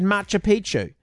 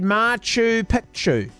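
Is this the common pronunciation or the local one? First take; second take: common; local. First: It uses the common pronunciation of the name. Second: It uses the local pronunciation of the name. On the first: The name means old penis. The speaker calls it wrong. "along with most other people, said Machu Picchu" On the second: The name means old peak. The speaker calls it right. "It's supposed to be said Machu Picchu"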